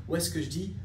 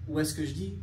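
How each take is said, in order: No difference in how they are said.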